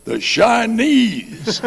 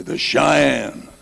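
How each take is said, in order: First: Very high, loud, slowly drawn-out "Chinese"; proud wrong answer. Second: High, loud declaration; proud answer. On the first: Bobby answers the lieutenant with the wrong word, slow high loud declaration. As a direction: belt out "The Chinese" slowly and confidently. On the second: Bobby answers the lieutenant, loud and high. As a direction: announce it boldly. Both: Retold or imitated.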